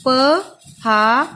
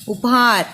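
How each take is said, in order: First: Drawn-out sounding. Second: Said in the usual way. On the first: Shown as a demonstration. Teacher sounding out उपहार slowly for pupils. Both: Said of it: "वहां से आप लिख सकते हैं".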